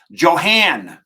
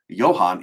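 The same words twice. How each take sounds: First: Johan with a hard J and twangy "han"; mock mispronunciation. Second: Said in the usual way. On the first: Shown as a demonstration. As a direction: stretch Johan loudly, Texan style, with an English J. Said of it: "It's not Johan, it's Johan". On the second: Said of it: "butchering your name".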